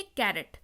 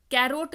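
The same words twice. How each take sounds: First: कैरेट, falling, with a short "-ret"; correct pronunciation. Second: कैरोट with a long o in "-rot"; wrong pronunciation. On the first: Teacher answers her own reading question, कैरेट ending in "-ret". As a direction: say कैरेट lower, ending "ret" rather than "rot". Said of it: "इसको क्या पढ़ेंगे?". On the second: Teacher rejects a misreading of carrot, कैरोट said with "-rot". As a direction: say कैरोट so it ends like "oat". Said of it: "कैरोट नहीं पढ़ेंगे". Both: Shown as a demonstration.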